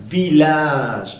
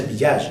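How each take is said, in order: First: "Village" with a real L, vee-lazh; clear L sound. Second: "village" with LL as Spanish Y; wrong Y sound. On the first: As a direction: draw out "Village" with L, not Y. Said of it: "se pronuncia como doble L". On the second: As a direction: say "village" as bee-yazh. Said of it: "no se pronuncia village". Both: Shown as a demonstration.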